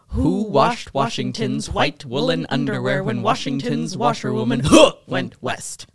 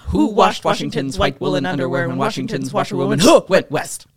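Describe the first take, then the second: First: It is said at a normal speed. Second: It is said fast.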